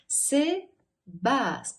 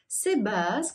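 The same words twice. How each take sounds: First: It is said slowly, syllable by syllable. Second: It is said at a moderate, even speed. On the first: "медленно по слогам" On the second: "Сначала в среднем ритме"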